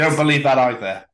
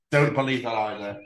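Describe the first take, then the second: First: Louder take. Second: Said in the usual way. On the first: Acted.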